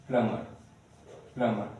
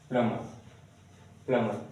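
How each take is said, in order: Both takes have the same delivery.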